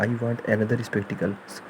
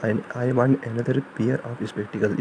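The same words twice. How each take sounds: First: Very slow, drawn out sentence; slow example. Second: Very slow, careful corrected sentence; slow corrected example. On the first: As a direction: dictate the wrong version slowly. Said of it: "example sentence said slowly". (धीमा उदाहरण वाक्य) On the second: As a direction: dictate the right version slowly. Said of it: "corrected sentence said slowly". (धीमे से सही वाक्य) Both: Shown as a demonstration.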